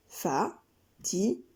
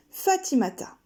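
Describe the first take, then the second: First: Fa-ti-ma-ta said slow and soft in four beats; slow syllables. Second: Said in the usual way. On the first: Shown as a demonstration. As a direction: step each syllable of Fa-ti-ma-ta. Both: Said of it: "Quatre syllabes, quatre pas".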